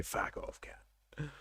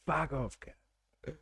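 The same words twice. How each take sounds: First: Whispered Aussie fuck off. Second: Softly imitating an Aussie fuck off; mock Aussie insult. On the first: Retold or imitated. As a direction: breathe the insult out, voiceless. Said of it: "How they say". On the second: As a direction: echo the Aussie insult under her breath. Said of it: "That should be on the, uh, citizenship test".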